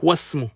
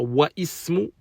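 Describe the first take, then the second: First: Wa runs straight into the s sound. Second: The i of ismu is pronounced separately. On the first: It sounds lighter. The speaker calls it right. "c'est plus léger" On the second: It sounds heavy. The speaker calls it wrong. "c'est lourd"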